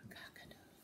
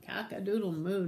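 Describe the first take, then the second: First: Barely audible crow; whispered prompt. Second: Full-voiced cow crow; nice and loud. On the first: Acted. Teacher letting the children say it, prompting in a whisper. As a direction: mouth it almost silently. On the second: Shown as a demonstration. Teacher showing children the big one, nice and loud. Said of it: "nice and loud".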